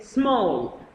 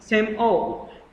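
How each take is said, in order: First: The word is said as one syllable. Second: The word is split into two syllables. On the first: The speaker calls it right. "we can also say small" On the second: The speaker calls it wrong. "not same all"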